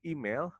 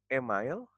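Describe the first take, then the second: First: "email" said as EE-mail; "email", ee then mail, as a model; correct "email" pronunciation. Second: "email" said as eh-MILE; "email", slowly mispronounced as eh-mile; wrong "email" pronunciation. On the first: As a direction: open "email" with an ee sound. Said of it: "nah ini dibacanya email". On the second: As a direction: demonstrate the mistake, "email" with eh and mile. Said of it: "bukan email". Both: Shown as a demonstration.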